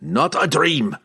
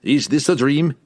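First: Higher-pitched falling denial, "Not a dream"; emphatic dwarf denial, dropping at the end; growled. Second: Higher-pitched rising question "Is this a dream?"; incredulous question, voice raised. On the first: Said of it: "Bruner growled". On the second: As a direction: ask "dream" with a lift, doubtfully. Posed as challenge to dwarf's claim. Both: A narrator's reading.

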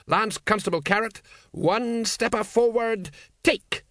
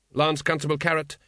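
First: Barking drill order. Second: Said in the usual way. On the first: Acted. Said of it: "Vimes mangling a drill command". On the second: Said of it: "narrator says the name plainly".

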